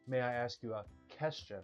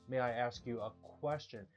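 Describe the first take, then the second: First: 'Question' begins with a plain 'k' sound. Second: 'Question' begins with a 'kw' sound. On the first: The speaker calls it wrong. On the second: The speaker calls it right.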